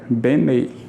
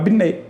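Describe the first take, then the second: First: Spoken slowly with a clear e vowel. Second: Spoken quickly with the e reduced to i. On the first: "Se você fala a palavra devagar, você ouve o som do E" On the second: "Mas se você falar rápido"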